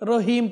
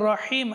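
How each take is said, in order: First: It starts with a light, plain h sound. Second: It starts with a deep, throaty h sound. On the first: The speaker calls it wrong. "তাহলে এটা বাংলা হ না, এটাকে রহিম বললে তাহলে সেটা সম্পূর্ণ ভুল হবে" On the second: The speaker calls it right. "এটা রহিম হা"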